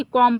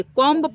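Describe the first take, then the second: First: कॉम ending on m, b silent; correct pronunciation. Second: कॉम्ब with an audible "ba" at the end; wrong pronunciation. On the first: Teacher giving pupils the right option, कॉम with silent b. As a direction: finish कॉम on the m with no b. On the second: Teacher giving pupils the wrong option, b voiced in कॉम्ब. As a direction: sound the silent b in कॉम्ब. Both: Shown as a demonstration. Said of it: "कॉम पढ़ेंगे".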